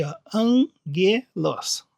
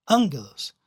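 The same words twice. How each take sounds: First: Slowly shown. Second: Angelos said AN-ge-los, with the weight on AN; stress on the first syllable. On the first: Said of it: "bem escrito aqui pra vocês verem". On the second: Teacher shows students the proparoxytone angelos, stressing AN. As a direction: lean on the first syllable of angelos, the antepenult, and let ge-los fall away. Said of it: "a sílaba mais forte é a terceira, proparoxítono". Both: Shown as a demonstration.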